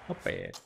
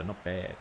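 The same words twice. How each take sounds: First: Mock deep voice. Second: Said in the usual way. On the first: Gamer repeating his verdict on the over, mock deep. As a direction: drop way low for a mock gruff "Not bad.".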